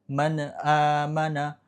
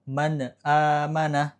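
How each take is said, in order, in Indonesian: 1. Bunyi n memantul dengan gema. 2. Bunyi n memantul dengan gema.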